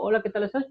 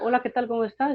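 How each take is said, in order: First: The greeting sounds forced and resentful. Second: The greeting sounds warm and loving.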